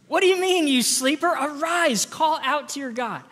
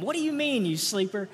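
First: Loud, high, rousing shout at the sleeper; captain yelling. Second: Light mock scolding of a sleepy kid; a hint of a parent waking a child. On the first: Acted. Ship captain shouting Jonah awake below deck, loud and high. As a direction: bellow it like a captain in a storm. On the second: Shown as a demonstration. Parent rousing a kid who sleeps in, mock scolding. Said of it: "you could try saying that to them".

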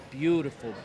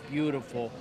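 Both takes have the same delivery.

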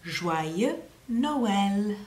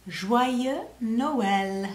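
First: Joyeux Noël repeated with weight on Noël; prompting the class to copy Joyeux Noël; French pronunciation again. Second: Joyeux Noël in French, zhwa-yeu no-el; teacher saying Joyeux Noël slowly; French pronunciation. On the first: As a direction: say Joyeux Noël for them to echo. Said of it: "You try". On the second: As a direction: model Joyeux Noël clearly for children. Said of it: "how we say Merry Christmas in French". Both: Shown as a demonstration.

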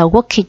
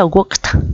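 First: "worked" mispronounced in two syllables as "work-it"; wrong extra syllable. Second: "worked" in one syllable, ending "kt"; correct T ending. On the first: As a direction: add a false "-id" syllable to "worked". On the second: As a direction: say "worked" as "workt", no extra syllable. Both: Shown as a demonstration. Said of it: "chúng ta không được đọc là worked".

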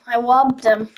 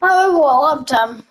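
First: Said in the usual way. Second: Slow gloating announcement; drawn-out brag. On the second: Real, not acted. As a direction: stretch it out, savoring the theft.

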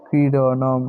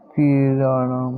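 First: Said in the usual way. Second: ক্রীড়নম drawn out slowly, syllable by syllable; slow model word. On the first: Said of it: "repeat at normal pace". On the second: Shown as a demonstration. Teacher to pupils, modelling ক্রীড়নম slowly for them to copy. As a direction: lay out ক্রীড়নম slowly so each sound is clear. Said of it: "teacher models the Sanskrit word".

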